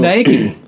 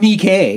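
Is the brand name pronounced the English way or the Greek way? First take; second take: English; Greek. First: It is pronounced the usual English way. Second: It is pronounced the Greek way.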